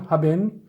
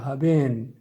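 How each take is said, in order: First: The first vowel is short. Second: The first vowel is long. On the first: The speaker calls it wrong. "Nie mówimy haben" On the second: The speaker calls it right. "tutaj jest trochę dłuższy. Bardziej melodijny"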